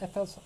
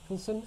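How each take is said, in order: First: The first letters are said separately. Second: The name is blended into one word. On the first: The speaker calls it right. "I presume you're supposed to pronounce it F L Sun" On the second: The speaker calls it wrong. "not Fulson"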